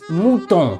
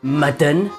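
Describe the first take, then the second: First: The first vowel sounds like 'moo'. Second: The first vowel sounds like 'mud'. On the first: The speaker calls it right. "It's mouton" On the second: The speaker calls it wrong. "not mutton"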